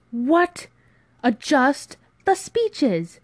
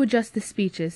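First: High, loud, drawn-out disbelief; incredulous outburst. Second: Said in the usual way. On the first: Acted. Friend repeats the proposal back, incredulous. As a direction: echo it slowly, appalled.

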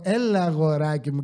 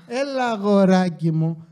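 First: Mock patronizing sweetness; condescending. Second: Slow, louder mock patronizing; condescending. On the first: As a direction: imitate her talking down to him. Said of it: "και υποτιμητικά". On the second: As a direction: drag it out, mocking her tone. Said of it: "Το θέμα είναι ότι μου λες".

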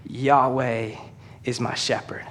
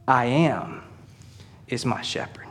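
First: Softly, Yahweh is my shepherd said low and slow; a preacher lowering his voice to let the name land; hushed reverence. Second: I am is my shepherd whispered, almost no voice; whispered awe. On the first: Preacher to church, quietly revealing the name Yahweh. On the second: Preacher to church, whispering the meaning of the name. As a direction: breathe it like a secret to the congregation. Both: Shown as a demonstration. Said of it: "he says".

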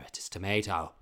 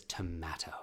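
First: "tomato" with a long "may" vowel; child's correction. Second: Low whispered, solemn dad; dad's insistence. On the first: Child correcting father on the word, to-MAY-to "tomato". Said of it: "And I go". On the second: Father correcting child's pronunciation, hushed insistence. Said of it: "It says". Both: Retold or imitated.

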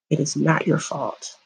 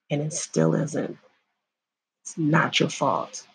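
First: Said in the usual way. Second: Softer, gentle, sincere; soft reassurance. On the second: Real, not acted. To a survivor watching, soft reassurance. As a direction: ease their guilt quietly. Reassuring viewers who were assaulted.

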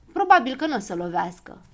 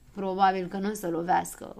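First: Said in the usual way. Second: Lightly mocking echo of the words; Știe Tot lightly mocks Probabil; mocking mimicry. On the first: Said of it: "răspunse Probabil". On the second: A narrator's reading. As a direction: parrot him back with mild scorn. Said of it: "îl îngână Știe Tot".

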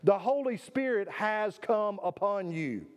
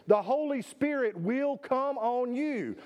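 First: Slow, stress on "Holy", falling to rest; emphatic. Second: Slow and weighty, stress on "Holy"; emphatic. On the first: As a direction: settle "has come upon you" with assurance. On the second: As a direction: lay down "The Holy Spirit will come on you" as certain. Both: Shown as a demonstration. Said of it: "that's an emphatic term".

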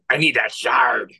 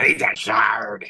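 First: Slow growly pirate; an inner pirate grumbling. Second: Slow breathy pirate whisper. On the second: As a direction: hiss it like a pirate. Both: Acted. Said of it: "Inner pirate, naked pirate voice".

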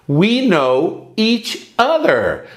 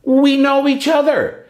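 First: We know each other spelled out slowly for learners; slow it right down so they can copy; a teacher's slow repeat-after-me; slow, careful model sentence. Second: Said in the usual way. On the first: Shown as a demonstration.

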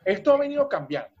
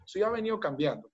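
First: This has been changing, said much higher; high exclamation. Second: Much softer sí ha venido cambiando; quiet confirmation. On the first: Speaker to listeners, high emphatic claim. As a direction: start high on Esto ha venido cambiando. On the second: Speaker to listeners, softly confirming it. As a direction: drop to a soft aside, affirming. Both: Shown as a demonstration.

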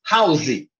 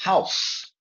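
First: "house" with an added final "ee" sound, like "hauzee"; mispronounced house. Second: "House" as one syllable ending in a crisp "s"; correct house. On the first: Retold or imitated. Student speaking in class, mispronouncing "house" with an extra vowel. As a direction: imitate a learner saying "house" as two syllables. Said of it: "ele fala uma vez". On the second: Shown as a demonstration. Teacher correcting a student, demonstrating one-syllable "House". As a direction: model "House" with no vowel after the s. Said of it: "você tem que enxergar um só".

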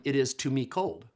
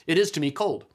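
First: Said in the usual way. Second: "It is to me cold" louder, with "is" pushed hard; stress on is. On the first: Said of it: "you say in German". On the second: Shown as a demonstration. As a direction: lean on "is" to show the odd German order. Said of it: "forgive my poor German pronunciation".

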